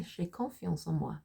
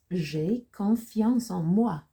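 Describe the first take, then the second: First: Said in the usual way. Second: Very slow, louder French with drawn-out words; slow model reading. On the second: Shown as a demonstration. Teacher introducing sentence nine to learners, slow model reading. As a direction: stretch each French word out firmly.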